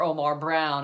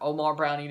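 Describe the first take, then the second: First: The surname ends on the n sound. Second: The surname ends with an added ee sound. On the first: "if you think Caldwell said it the right way" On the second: "the Yahoo Sports guy and the Univision guy said Brownie"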